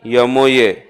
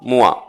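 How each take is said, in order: First: It is said as three separate letters. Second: It is said as one blended word. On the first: The speaker calls it right. "यमओए बोलते हैं इसको हम" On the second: The speaker calls it wrong. "अरे मुआ नहीं"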